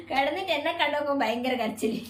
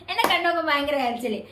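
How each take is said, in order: First: Giggling through the words; laughing. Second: Said in the usual way. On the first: Real, not acted. Laughing as she tells viewers about the crying. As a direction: laugh while you tell it.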